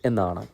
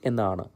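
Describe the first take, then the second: Both takes have the same delivery.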